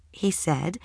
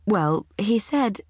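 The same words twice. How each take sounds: First: Said in the usual way. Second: Drawn out, slow, hesitant; slow hesitation. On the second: A narrator's reading. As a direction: stall for time before the punchline. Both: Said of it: "I hesitated".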